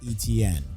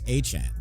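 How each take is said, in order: First: The name is said with a clear t sound. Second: The name is said with a ch sound. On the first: The speaker calls it wrong. "It's not E T N" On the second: The speaker calls it right. "It's H N"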